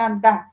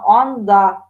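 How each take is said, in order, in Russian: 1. Первый гласный произносится с неогублёнными губами. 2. Первый гласный произносится с огублёнными губами. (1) "никакой не анда" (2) "Я говорю его округленно"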